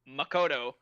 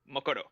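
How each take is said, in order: First: One syllable is stressed more than the others. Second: All syllables get the same amount of stress.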